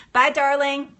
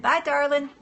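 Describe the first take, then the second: First: Said in the usual way. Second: Put-on Florida Southern accent. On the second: Echoing a viewer's sign-off in a fond Southern accent. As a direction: sing it out like a sweet Southern Florida lady. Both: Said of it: "in your little Florida Southern accent".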